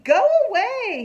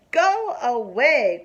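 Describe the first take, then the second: First: Very high, loud brush-off; yelling. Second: Slow, loud go away; mock shout. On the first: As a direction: snap her away. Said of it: "he yells at her". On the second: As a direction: shoo her off loudly and slowly. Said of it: "cried Froggy". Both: A narrator's reading.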